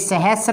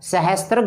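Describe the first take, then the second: First: No t sound comes before the r. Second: A t sound comes before the r. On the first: The speaker calls it right. "तो ये सहस्र है" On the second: The speaker calls it wrong. "सहस्त्र गलत है"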